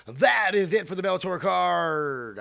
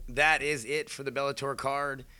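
First: Higher, louder, slow announcer boom. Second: Booming ring announcer read. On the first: Shown as a demonstration. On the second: Real, not acted. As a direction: announce it like a fight card host. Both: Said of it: "I just say that like an announcer voice again".

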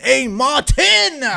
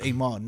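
First: A Martin slow, high and loud; like you mean it. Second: Said in the usual way. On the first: Retold or imitated. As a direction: belt out A Martin, stretching the last syllable. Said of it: "say it like you mean it". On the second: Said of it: "no, say it like you mean it".

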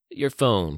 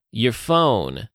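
First: Measured first request in a Texan voice; beckoning demand. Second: Loud, forceful repeat of an order; loud demand. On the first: Gunman beckoning for her phone, controlled demand. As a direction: ask for it without yelling. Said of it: "he beckoned at her". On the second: Gunman pointing the pistol at her, loud demand. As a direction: raise your voice and demand it. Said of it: "he said loudly". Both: A narrator's reading.

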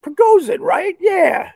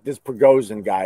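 First: Prigozhin said much higher, falling, proud of getting it; reading the name out. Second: Said in the usual way. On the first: Real, not acted. Finally reading the Russian name, pitched high. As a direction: announce Prigozhin up high like a win. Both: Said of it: "Let me look up his name".

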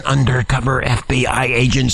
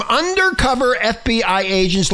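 First: Dropped into a very low pitch; repeated for emphasis. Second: Said in the usual way. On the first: Shown as a demonstration. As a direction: intone it deep and deliberate. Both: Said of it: "Let me say it again".

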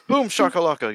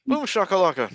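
First: Lightly voiced arena announcer catchphrase; a hint of the NBA Jam announcer, shouted for fun; hype announcer call. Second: Higher, pitched-up NBA Jam catchphrase; hype announcer call. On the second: Retold or imitated. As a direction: toss it up like a game announcer. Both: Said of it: "Get the N B A Jam guy".

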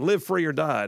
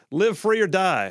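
First: Said in the usual way. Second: Slow, higher and louder, each word punched; host announces the show's slogan with a slow punch; slogan call. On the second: Acted. Radio host to listeners, slow punchy slogan.

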